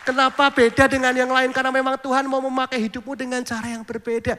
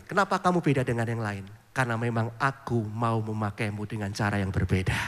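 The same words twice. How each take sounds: First: Higher and louder, rousing: "Kenapa beda dengan yang lain?"; preached again loud. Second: Gentle inner voice. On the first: Acted. Pastor repeating the message to the congregation, rousing and louder. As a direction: proclaim it boldly to the whole church. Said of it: "Ya, sekali lagi". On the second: Retold or imitated. God's quiet voice answering the pastor's prayer, softer and lower. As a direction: lower and softer, tender and calm: "Kenapa kamu beda dengan yang lain?". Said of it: "ada suara lembut di hati".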